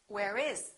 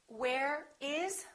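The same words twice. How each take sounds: First: The words are linked together. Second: The words are said separately.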